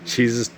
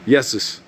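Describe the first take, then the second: First: The name begins with a J sound. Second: The name begins with a Y sound. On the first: The speaker calls it wrong. "Not Jesus" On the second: The speaker calls it right. "Would be more of the proper pronunciation"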